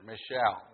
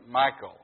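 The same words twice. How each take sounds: First: "Michelle" as mih-SHELL, soft sh; alternative pronunciation. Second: "Michal" said like Michael, MY-kul; alternative pronunciation. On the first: Preacher offering the other way to say the wife's name, stressed mih-SHELL. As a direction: say "Michelle" with the stress on the second syllable. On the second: Preacher giving one way to say David's wife's name, pronounced MY-kul. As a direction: say "Michal" as MY-kul, stress up front. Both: Shown as a demonstration. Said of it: "some folks pronounce it either way".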